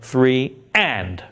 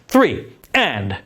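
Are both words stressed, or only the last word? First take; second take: last word; both. First: Only the last word is said with stress. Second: Both words are said with equal stress. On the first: The final beat is the active preparatory beat. The speaker calls it right. "we have a little more sense of active in the way we say that last beat" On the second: There seem to be two active beats, so players may enter early. The speaker calls it wrong. "someone's going to play early because we have two active beats"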